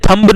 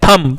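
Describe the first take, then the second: First: The final b sound is pronounced. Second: The final b sound is silent. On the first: The speaker calls it wrong. "बेटा ये थंब नहीं है" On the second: The speaker calls it right. "ये थंब"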